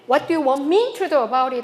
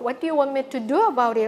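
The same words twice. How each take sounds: First: It sounds aggressive, with the stress shifted. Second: It sounds neutral, with stress on do. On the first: The speaker is confronting the listener. "굉장히 어그레시브하게 느껴진다고 합니다" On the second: The speaker is simply asking what the listener wants. "별 감정 없이 얘기할 때는 do를 강하게 읽으면 된다"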